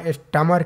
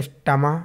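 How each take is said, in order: First: स्टमर with the final 'r' sounded; R pronounced. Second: स्टमा ending in an open 'aa', no r; silent R. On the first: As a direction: end स्टमर on an audible r. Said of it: "आर का pronunciation होता ही नहीं है". (स्टमर के अंत में 'र' बोलें) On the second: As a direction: drop the final r, so it ends स्टमा. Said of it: "silent हो जाता है". (स्टमा के अंत का 'र' साइलेंट रखें) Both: Shown as a demonstration.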